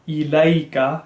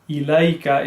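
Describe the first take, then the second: First: The first vowel is an i sound. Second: The first vowel is an i sound.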